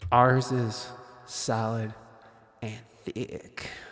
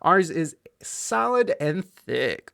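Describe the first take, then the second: First: The voice has added reverb on it. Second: The voice sounds dry, without added reverb.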